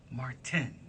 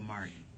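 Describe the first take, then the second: First: The name is said with every sound clearly. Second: The name is said loosely, sounds run together. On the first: The speaker calls it right. "enunciating everything in his name" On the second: The speaker calls it wrong. "we always go"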